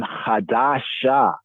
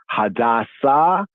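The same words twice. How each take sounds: First: "Hadasha" with a clear sh before the final vowel; sh sound. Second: "Hadassah" with a clear s before the final vowel; s sound. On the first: Teacher linking two similar words, "Hadasha" with sh. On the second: Teacher linking two similar words, "Hadassah" with s. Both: Shown as a demonstration. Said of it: "see the connection of".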